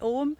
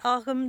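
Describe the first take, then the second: First: The word has its modern Irish pronunciation. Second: The word has its old Irish pronunciation. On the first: "One is the modern Irish pronunciation" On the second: "Ogham then would be the old Irish pronunciation"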